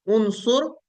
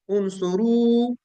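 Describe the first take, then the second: First: उनसुर said crisply with no final vowel; उनसुर ending on a clean r with no u; correct form. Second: उनसुरु slowly drawn out with a final u; wrong form. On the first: Teacher models the correct उनसुर for students. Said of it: "पहले वाला उनसुर है". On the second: Teacher slowly says the mistaken उनसुरु. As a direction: stretch उनसुरु and let the final u ring. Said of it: "पहले वाला उनसुरु नहीं है". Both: Shown as a demonstration.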